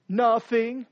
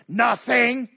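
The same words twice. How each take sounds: First: A mildly sulky, brushed-off nothing; a light pout on Nothing. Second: Nothing. snapped short and louder; a louder, sharper Nothing. that means everything; curt angry nothing. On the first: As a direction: say nothing as if it's nothing. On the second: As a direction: bite off Nothing. as a hostile denial. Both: Acted. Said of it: "Or it's even worse".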